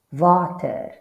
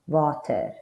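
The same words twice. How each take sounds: First: "Water" with a v sound, vah-tuh; Afrikaans water. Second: "water" with an English w, waw-tuh. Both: Shown as a demonstration. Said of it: "just like in the English water".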